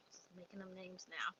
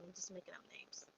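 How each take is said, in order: First: Said in the usual way. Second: Soft throwaway whisper; murmured side note to the audience; whispered aside. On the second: Real, not acted. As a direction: whisper it under your breath as a quick self-aside. Self-aside about invented names.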